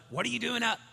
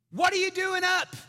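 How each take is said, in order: First: Higher, restrained parental complaint; mildly exasperated. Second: High, very loud parental outburst; exasperated yell. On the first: Dad to daughter up again, mildly exasperated question. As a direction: ask it with a touch of weary disbelief. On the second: Dad to daughter out of bed, high exasperated shout. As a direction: yell it up the stairs in disbelief. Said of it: "in the nicest way possible". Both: Retold or imitated.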